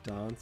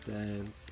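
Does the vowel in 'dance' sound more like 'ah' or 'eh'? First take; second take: ah; eh. First: The vowel sounds like an open 'ah'. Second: The vowel sounds like a flat 'eh'.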